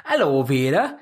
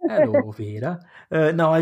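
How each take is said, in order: First: Put-on Hello, Vera in a broad northern accent. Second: Put-on northern accent. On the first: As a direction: greet like a cheery northerner. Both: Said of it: "You'd do that odd northern accent".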